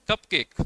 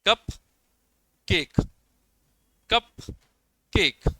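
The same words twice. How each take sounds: First: कप केक said together, both parts full; stress on both. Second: कप and केक as separate, fully stressed words; long pause between कप and केक, weight on both; equal stress, divided. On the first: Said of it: "दोनों के ऊपर stress है". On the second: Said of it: "इसमें stress दिया जाएगा दोनों के ऊपर". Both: Shown as a demonstration.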